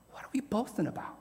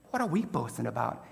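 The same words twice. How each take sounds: First: "what are we boasting about?" in a breathy whisper. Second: Said in the usual way. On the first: Shown as a demonstration. Preacher whispering the question back to the church. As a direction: drop to a whisper on "we".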